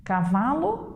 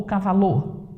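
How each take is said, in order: First: "Cavalo" stressed on va; correct middle stress. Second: "cavalô" accented on the last syllable; shifted final stress. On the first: Teacher offers the right option, stressing va in "Cavalo". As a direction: lean on va in "Cavalo". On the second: Teacher tests the wrong option, stressing lô in "cavalô". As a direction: hit the end of "cavalô". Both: Shown as a demonstration. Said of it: "Tentem deslocar a sílaba tônica".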